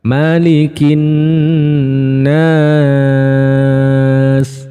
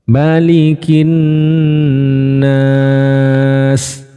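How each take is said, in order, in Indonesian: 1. Vokal di 'nas' dibaca terpanjang. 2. Vokal di 'nas' dibaca sedang. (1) "kalau yang tiga alif seperti apa?" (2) "Kalau dua alif"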